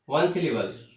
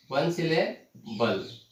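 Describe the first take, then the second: First: Said in the usual way. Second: "वन syllable" said slowly, broken before the final syllable. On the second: Shown as a demonstration. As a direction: dictate "वन syllable" in slow pieces. Teacher breaks term into syllables. ("वन syllable" को धीरे-धीरे तोड़कर)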